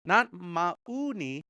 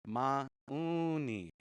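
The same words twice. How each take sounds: First: Mauni said slowly with a plain oral vowel; wrong, no nasal. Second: Mauni with a nasalised vowel in the middle; nasal vowel. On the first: Teacher shows students the wrong mauni, slowly, without the nasal. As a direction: draw out mauni with no nasal sound. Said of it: "We're not saying mauni". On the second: Teacher models Mauni correctly for students with the nasal vowel. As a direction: let Mauni's vowel ring through the nose. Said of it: "gotta have that little nasal in there". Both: Shown as a demonstration.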